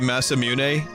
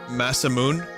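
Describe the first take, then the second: First: The name ends with two syllables, 'moo-neh'. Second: The name ends with a single 'moon' syllable. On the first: "now when I say Masamune" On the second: "I remember pronouncing it Masamoon"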